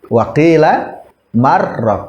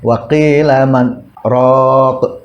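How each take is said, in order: First: The n merges into r with no stop. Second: There is a brief stop after man. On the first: It sounds like a word meaning vegetable dish. The speaker calls it wrong. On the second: The intended meaning is clear. The speaker calls it right.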